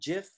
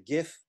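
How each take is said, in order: First: The word starts with a soft J sound. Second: The word starts with a hard G sound. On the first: The speaker calls it wrong. "some of you pronounce it GIF, which isn't really correct" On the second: The speaker calls it right. "because the first word is graphic. It's a GIF"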